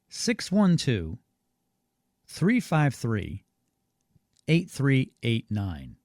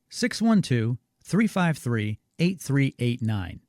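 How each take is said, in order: First: The number is said more slowly. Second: The number is said at normal speed.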